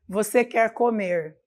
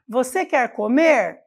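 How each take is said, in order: First: It is said with flat statement intonation. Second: It is said with question intonation. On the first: It asserts something rather than asking. The speaker calls it wrong. "eu não estou perguntando, eu estou afirmando" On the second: It asks whether the listener wants to eat. The speaker calls it right. "Agora eu estou usando a entonação correta para fazer uma pergunta direta"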